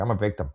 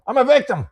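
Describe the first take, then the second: First: Said in the usual way. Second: High, loud, self-pitying wail of a victim; mock whiny victim. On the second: Mocking a daughter who blames her mother, in a high poor-me whine. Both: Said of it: "Let's be angry".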